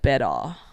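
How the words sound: The word is said in a relaxed, loose way.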